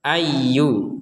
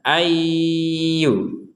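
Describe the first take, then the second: First: It is said quickly with no nasal hum. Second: A nasal hum is held before the yu. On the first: The speaker calls it wrong. "itu kan nggak ada dengung itu" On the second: The speaker calls it right. "didengungkan dulu baru ke yu ... dua harokat"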